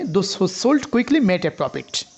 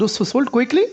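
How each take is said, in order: First: Very slow, weight on "sold" with a falling tune; slow stressed reading. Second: "quickly" lifted high with a rising tune; stress on quickly. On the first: Teacher reading to students, slowly stressing "sold". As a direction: read it slowly and hit "sold", then fall. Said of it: "একসাথে যখন intonation করা হচ্ছে". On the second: Teacher contrasting meanings, stress on "quickly" alone. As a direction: push the weight onto "quickly" and let it rise. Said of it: "only কুইকলিকে intonation করা হচ্ছে". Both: Shown as a demonstration.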